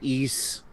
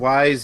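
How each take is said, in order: First: The name rhymes with 'feast'. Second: The name rhymes with 'size'. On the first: The speaker calls it right. "I've heard East" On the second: The speaker calls it wrong. "I've heard Wise"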